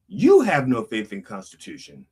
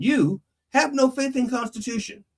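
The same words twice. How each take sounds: First: Emphatic "you" opening a falling statement; stress on YOU. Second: High, level-pitched order; mock command in a raised voice. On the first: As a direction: hit "you" first, let the rest descend. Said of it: "If you substitute". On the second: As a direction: issue it as an instruction, pitched well up. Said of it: "that could actually be a command". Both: Shown as a demonstration.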